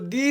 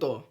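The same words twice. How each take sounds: First: It is said in its full, strong form. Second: It is said in its reduced, weak form. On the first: "the is strong" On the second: "not the"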